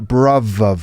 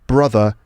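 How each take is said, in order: First: The middle consonant is a v sound. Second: The middle consonant is a th sound.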